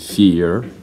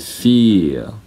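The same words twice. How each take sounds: First: It is said with an American accent. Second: It is said with a British accent.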